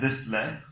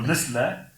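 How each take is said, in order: First: "le" as the second Malayalam l; second "le" sound. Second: "le" as the first Malayalam l; first "le" sound. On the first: Linguist showing Malayalam sounds, second "le" demonstrated. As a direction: say "le" with the other l sound. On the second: Linguist showing Malayalam sounds, first "le" demonstrated. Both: Shown as a demonstration. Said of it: "in Malayalam you can say the le".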